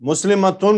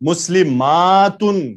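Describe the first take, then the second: First: The middle 'a' vowel is cut short. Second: The middle 'a' vowel is drawn out long. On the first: It sounds like it refers to one woman. The speaker calls it wrong. "یہ تو مجہول پڑھ دیا آپ نے" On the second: It refers to many women. The speaker calls it right. "جمع میں ذرا الف کو کھینچ دیا کریں"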